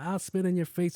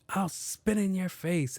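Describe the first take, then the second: First: High mocking kid voice; rude kid. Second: High, slow mocking kid voice; rude kid. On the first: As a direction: toss the kid's threat up high. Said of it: "he's like". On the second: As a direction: drawl the kid's threat up high. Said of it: "this young kid was like".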